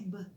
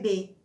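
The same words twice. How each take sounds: First: It is said as a bare consonant sound. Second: It is said as the full letter name. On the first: This is the sound the letter makes in words. "o som é B" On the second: This is what the letter is called. "o nome da letra é B"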